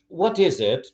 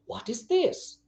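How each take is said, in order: First: Said in the usual way. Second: THIS held high and soft; changed intonation. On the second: Shown as a demonstration. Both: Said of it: "Sometimes I change the, and intonation".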